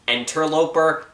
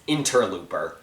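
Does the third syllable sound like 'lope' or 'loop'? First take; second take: lope; loop. First: The third syllable has a 'lope' sound. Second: The third syllable has a 'loop' sound. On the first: The speaker calls it right. "I mispronounced Interloper" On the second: The speaker calls it wrong. "as Interlooper"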